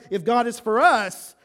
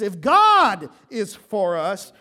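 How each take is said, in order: First: The stress falls on the word us. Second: The stress falls on the word God.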